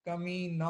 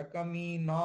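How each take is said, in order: First: कमीना said long and dragged; कमीना teasingly stretched; stretched word. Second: कमीना with the vowels drawn out long; कमीना, drawn out for a playful insult; stretched word. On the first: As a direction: pull out every sound of कमीना. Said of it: "जितना कमीना है उतना खींचो". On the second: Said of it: "थोड़ा खींचना पड़ेगा". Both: Shown as a demonstration.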